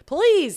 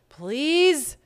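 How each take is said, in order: First: The voice does not rise at the end. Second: The voice rises at the end, long and sad.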